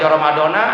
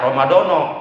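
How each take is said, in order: First: The word ends with an 'a' vowel. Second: The word ends with an 'o' vowel. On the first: "Kalau dibaca Ramadana salah" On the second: "itu lebih salah lagi, lebih parah lagi"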